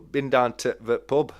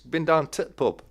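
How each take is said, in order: First: The article is said before 'pub'. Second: The article before 'pub' is dropped. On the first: The speaker calls it wrong. "It's like no, there's no to the pub" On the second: The speaker calls it right. "No the in it"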